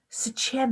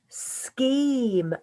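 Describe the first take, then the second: First: It is said with a ch sound. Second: It is said with a k sound. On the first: The speaker calls it wrong. "Normally we would think this is ch" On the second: The speaker calls it right. "S, k, im, sk, im"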